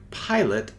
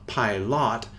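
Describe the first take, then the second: First: The second vowel is short and unclear. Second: The second vowel is a full, clear 'lot'. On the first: The speaker calls it right. "this sounds like pilot" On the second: The speaker calls it wrong. "and not pilot"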